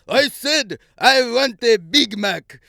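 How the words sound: It is said in a put-on Russian accent. The speaker calls it right.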